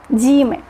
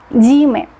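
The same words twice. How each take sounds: Both takes have the same delivery.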